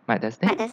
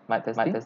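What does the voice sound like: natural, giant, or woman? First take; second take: woman; natural. First: The voice sounds like a processed woman's voice. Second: The voice sounds like a natural, unprocessed man's voice. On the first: "I choose woman" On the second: "If I not activate the morph"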